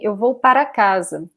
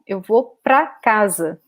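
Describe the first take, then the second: First: The word before casa is said as two syllables. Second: The word before casa is squeezed into one syllable. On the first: This is the full, more careful way of speaking. "instead of saying eu vou para casa" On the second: This is the casual everyday way of speaking. "Brazilians very often say pra"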